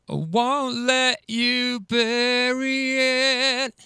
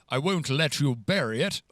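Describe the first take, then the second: First: It has a casual London Cockney accent. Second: It has a posh, old-fashioned English accent.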